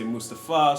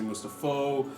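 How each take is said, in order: First: The name ends with an 'ah' vowel. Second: The name ends with an 'oh' vowel. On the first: The speaker calls it right. "Some people say Mustafa" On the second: The speaker calls it wrong. "some people say Mustafo"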